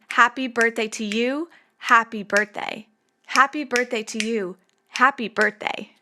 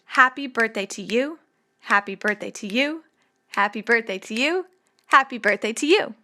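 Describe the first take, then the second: First: Unstable, lopsided rhythm; three-two stress pattern. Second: Stable, even rhythm; steady three-beat lines. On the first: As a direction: alternate a three-stress "Happy birthday to you" with a clipped two-stress "happy birthday". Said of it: "it's three two three two". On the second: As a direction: chant each line with three even stresses, rising at the end. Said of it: "four lines with three syllables each". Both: Shown as a demonstration.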